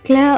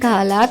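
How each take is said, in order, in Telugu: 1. k మరియు l శబ్దాలు కలిసి ఉంటాయి. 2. ఒక అచ్చు k మరియు l శబ్దాలను వేరు చేస్తుంది. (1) "క్లా అవుతుంది" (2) "కాలా కాకుండా"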